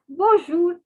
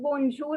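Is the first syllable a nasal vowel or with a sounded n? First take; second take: nasal vowel; sounded n. First: The vowel is nasal with no sounded n. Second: The n is sounded after the vowel. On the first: The speaker calls it right. "It is the nasal sound. So it is not to be pronounced" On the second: The speaker calls it wrong. "it is not bonjour"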